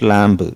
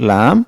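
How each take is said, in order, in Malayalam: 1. ഈ വാക്ക് കേൾക്കാവുന്ന b ശബ്ദത്തോടെയാണ് അവസാനിക്കുന്നത്. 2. ഈ വാക്ക് b ശബ്ദമില്ലാതെയാണ് അവസാനിക്കുന്നത്. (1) "this is not ലാംബ്" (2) "ബി silent ആക്കി വെക്കണം"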